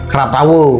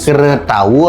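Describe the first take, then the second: First: The first syllable is said as 'kra'. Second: The first syllable is said as 'kre'. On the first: "atau Kratawu" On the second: "bukan Kretawu"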